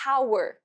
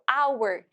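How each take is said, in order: First: The word starts with an audible h sound. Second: The word starts directly with a vowel sound. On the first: The speaker calls it wrong. "eu não falo hour" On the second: The speaker calls it right. "Esse H não tem som, né? Tem som de O"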